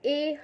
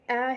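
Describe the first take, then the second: First: The letter is said with an 'ay' vowel. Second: The letter is said with a short 'a' vowel. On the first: The speaker calls it wrong. "तुम्ही ए हा pronunciation करतात" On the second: The speaker calls it right. "फोनिक्समध्ये ॲ हे बोललं जाते"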